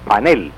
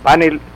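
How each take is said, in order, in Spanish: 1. El acento está en la primera sílaba. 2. El acento está en la última sílaba. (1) "no con acento grave" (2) "Es la palabra correcta, con acento agudo"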